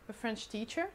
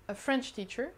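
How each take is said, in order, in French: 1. L'accent tombe sur le mot teacher. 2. L'accent tombe sur le mot French. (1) "c'est un professeur qui est français" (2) "c'est un professeur de français"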